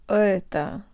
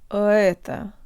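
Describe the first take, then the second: No difference in how they are said.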